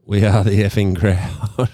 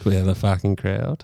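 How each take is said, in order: First: Said in the usual way. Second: Corrects to the swear word with a laugh; cheeky laughing sign-off; laughing uncensored name. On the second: Real, not acted. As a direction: blurt the real word, chuckling.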